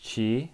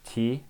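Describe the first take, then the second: First: The syllable starts with a ch sound. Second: The syllable starts with a plain t sound. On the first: The speaker calls it right. "This is chi" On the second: The speaker calls it wrong. "this is not ti"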